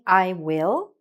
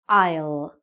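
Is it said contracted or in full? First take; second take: full; contracted. First: Both words are said fully and separately. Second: The words are joined into one short syllable. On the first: "instead of saying I will" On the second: "we can say I'll"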